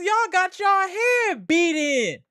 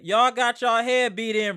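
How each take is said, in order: First: High, loud, slow jeering shout; gloating taunt. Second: Said in the usual way. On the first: Real, not acted. Streamer taunting Celtics fans, slow high jeer. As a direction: rub it in their faces.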